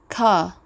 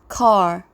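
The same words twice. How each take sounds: First: The final r sound is dropped. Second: The final r sound is pronounced. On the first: "it is non-rhotic" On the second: "G A accent is rhotic"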